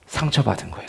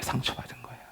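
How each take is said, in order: First: Said in the usual way. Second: Breathy repeat in a whisper, nearly silent. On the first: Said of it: "상처받은 거예요. (repeated)". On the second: Real, not acted. Pastor whispering the hurt back to the congregation. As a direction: let the word fall away into a hush.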